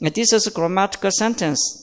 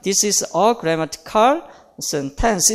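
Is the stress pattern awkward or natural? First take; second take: natural; awkward. First: The stress falls in natural places. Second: The stress falls in awkward places. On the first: The speaker calls it right. "자연스러운 강세가 어, 주어진" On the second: The speaker calls it wrong. "이렇게는 안 하죠. 어색하잖아요"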